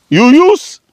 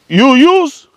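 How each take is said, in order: Both takes have the same delivery.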